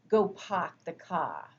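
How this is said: It has a New England accent dropping the r sounds. "they have a very thick New England accent. And you might hear something like"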